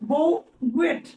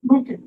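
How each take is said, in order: First: It is read letter by letter, ending in 't'. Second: It ends in an open vowel, 't' unsounded. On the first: The speaker calls it wrong. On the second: The speaker calls it right.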